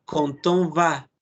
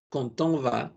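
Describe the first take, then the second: First: Quand on va said slowly, d linked as a t into on; French liaison demo. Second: Quand on va said quickly and softly with the d linked as t; French liaison, natural speed. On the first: Teacher slowly models quand on va for the class. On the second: Teacher repeats quand on va at normal speed. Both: Shown as a demonstration. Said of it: "Por eso cuando decimos".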